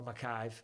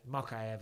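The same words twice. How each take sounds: First: "Makayev" run together as muh-KYVE; shortened name pronunciation. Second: "Makayev" as mah-KAI-ev; fuller name pronunciation. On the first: Unsure of a fighter's name, "Makayev" as muh-KYVE. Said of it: "or Makayev, Makayev I think it is". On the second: Correcting a fighter's name, "Makayev" as mah-KAI-ev. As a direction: say "Makayev" in three syllables, ending -ev. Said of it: "Makayev I think it is". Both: Shown as a demonstration.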